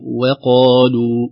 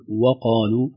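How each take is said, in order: First: وقالوا said very slowly, light waw, heavy qaf; correct light waw. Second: وقالوا with the waw thickened toward the qaf; wrong heavy waw. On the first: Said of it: "الصحيح". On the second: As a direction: colour the waw of وقالوا dark, the mistake. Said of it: "نخشى من تأثرها بالقاف فنقول". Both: Shown as a demonstration.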